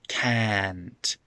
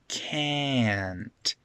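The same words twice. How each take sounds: First: The vowel is non-nasal, like ah. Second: The vowel is nasal, like eh. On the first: The speaker calls it wrong. "It's not" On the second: The speaker calls it right. "a nasal eh"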